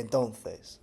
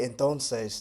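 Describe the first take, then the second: First: It is said in a Spanish accent. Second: It is said in a Latin American accent. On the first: "they'll say entonces" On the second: "a Spaniard won't say entonces"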